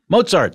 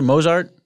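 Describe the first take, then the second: First: It is said with a t before the z. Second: It is said with a plain z, no t. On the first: The speaker calls it right. "There's a fucking false T in there" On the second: The speaker calls it wrong. "No one says that"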